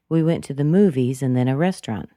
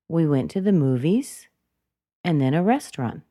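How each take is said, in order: First: The pitch does not rise on movies. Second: The pitch rises on the word movies. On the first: "Is it possible for me to say" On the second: "Movies went up"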